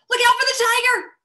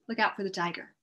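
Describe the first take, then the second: First: It is said with strong, excited expression. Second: It is a calm statement falling at the end.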